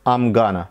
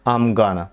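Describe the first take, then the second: First: The words are squeezed into a shortened form. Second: The words are squeezed into a shortened form.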